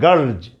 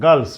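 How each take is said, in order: First: The word ends with a z sound. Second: The word ends with an s sound. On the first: The speaker calls it right. "इसका उच्चारण जेड जैसा आपको करना पड़ेगा" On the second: The speaker calls it wrong. "गर्ल्स नहीं"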